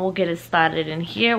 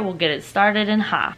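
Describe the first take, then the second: First: Said in the usual way. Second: "here" turned into an open "ha"; playful mispronunciation. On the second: Pretend. Playful repeat with altered last word.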